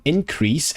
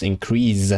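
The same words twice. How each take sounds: First: "increase" as the noun, ending in a voiceless S; noun pronunciation. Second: "increase" as the verb, ending in a voiced Z; verb pronunciation. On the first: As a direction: finish "increase" on a hissed S. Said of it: "is it the noun increase". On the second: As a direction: finish "increase" on a buzzing Z. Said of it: "the verb is increase". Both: Shown as a demonstration.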